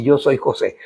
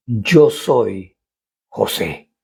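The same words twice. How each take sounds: First: Said in the usual way. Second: Slow, low, hushed reveal; dramatic pause before José, said low and hushed. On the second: Acted. Climactic reveal read dramatically.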